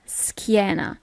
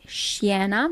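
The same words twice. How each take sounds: First: "schiena" slowly, with a hard sk; correct hard-k pronunciation. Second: "schiena" with a soft sh at the start; wrong pronunciation. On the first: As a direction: say "schiena" as skee-EH-na, drawn out. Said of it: "you don't pronounce it schiena". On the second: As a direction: say "schiena" as shee-EH-na. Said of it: "you don't pronounce it". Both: Shown as a demonstration.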